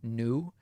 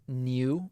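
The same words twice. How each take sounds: First: It is said without a y-glide, like noo. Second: It is said with a y-glide, like nyoo. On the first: "as opposed to new" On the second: "I use a liquid U when pronouncing the word new"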